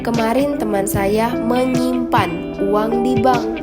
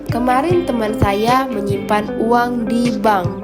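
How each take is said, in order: First: The stress falls on menyimpan. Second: The stress falls on di bank. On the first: The money was saved, not exchanged. "Menyimpan, bukan menukar" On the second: It was at a bank, not a pawnshop. "Di bank, bukan penggadaian"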